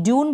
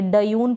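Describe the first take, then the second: First: ड्यून with a half ड, gliding straight into यून; one syllable, ड्यून with no vowel after ड; correct pronunciation. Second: डयून with a full vowel after ड, split into two syllables; wrong pronunciation. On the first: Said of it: "नहीं, ड्यून बोल रहे हैं". (ड्यून, आधा ड बोलकर) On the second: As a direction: say डयून as ड plus अ, then यून. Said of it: "यानी टयून करके नहीं पढ़ेंगे". (डयून, ड पूरा बोलकर) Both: Shown as a demonstration.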